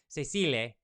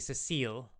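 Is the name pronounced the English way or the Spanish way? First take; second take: Spanish; English. First: The name is pronounced with Spanish sounds. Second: The name is pronounced with English sounds. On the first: "part of me wants to pronounce it like Spanish would be what" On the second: "but then the English would be"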